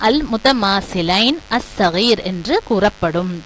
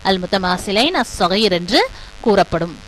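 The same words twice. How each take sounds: The two takes are said the same way.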